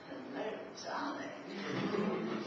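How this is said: It sounds strange and weird.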